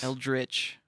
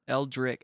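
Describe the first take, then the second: First: The word ends with a 'ch' sound. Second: The word ends with a 'k' sound.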